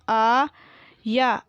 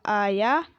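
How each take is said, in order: First: आया split into long aa and yaa; very slow आया, syllables held apart; spelled out. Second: Said in the usual way. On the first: Shown as a demonstration. Teacher sounding out आया for pupils, syllable by syllable. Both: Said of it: "मैंने इस तरीके से पढ़ा".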